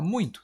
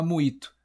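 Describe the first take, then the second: First: "muito" as one nasal glide, muin-to; usual nasal form. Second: "muito" as mu-i-to, no nasal sound; wrong, oral vowels. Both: Shown as a demonstration. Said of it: "Você não fala muito".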